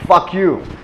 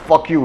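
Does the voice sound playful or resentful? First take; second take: playful; resentful. First: It is said in a playful, fun tone. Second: It is said in a hurt, resentful tone. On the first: It is friendly teasing. "I say it with a fun vibe" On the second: The person is genuinely upset. "in a butthurt vibe"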